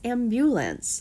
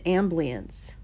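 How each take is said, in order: First: The word is said in full, all syllables. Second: The word is said with sounds dropped. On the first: The speaker calls it right. "No, no, no, no. It's ambulance" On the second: The speaker calls it wrong. "they said ambience"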